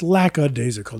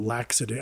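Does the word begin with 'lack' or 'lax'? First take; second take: lack; lax. First: The first syllable sounds like 'lack'. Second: The first syllable sounds like 'lax'. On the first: The speaker calls it right. "it's lackadaisical" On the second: The speaker calls it wrong. "not lackadaisical. I said like lax, like relax"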